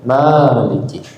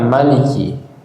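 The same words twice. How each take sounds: First: The first vowel is held long. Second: The first vowel is kept short.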